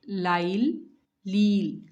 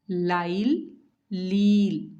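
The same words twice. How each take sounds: No difference in how they are said.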